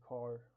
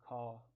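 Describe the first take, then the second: First: The R after the vowel is pronounced. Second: The R after the vowel is dropped. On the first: "in American accents we say" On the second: "in non-rhotic accents uh, people say"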